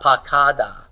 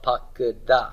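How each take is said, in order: First: The second syllable has a full a vowel. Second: The second syllable has a reduced schwa vowel. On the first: The speaker calls it wrong. "Not pakada" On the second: The speaker calls it right. "but pakada"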